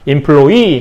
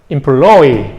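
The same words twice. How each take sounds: First: The stress is on the last syllable. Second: The stress is on the middle syllable. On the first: This is the current form from French. "강사가 뒤에 있죠?" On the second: This is a predicted form about a century from now. "강세가 이렇게 옮겨가고"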